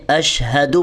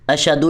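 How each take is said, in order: First: اشہدو with a clear breathy ہ after ش; correct ha. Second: اشہدو with the ہ dropped, like ashadu; wrong hamza. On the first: Teacher showing the correct ha sound. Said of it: "اس کو آپ نے اشہدو پڑھنا ہے". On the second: Teacher showing the common mistake. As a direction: say اشہدو with a glottal stop in place of the h. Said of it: "اشہدو نہیں پڑھنا". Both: Shown as a demonstration.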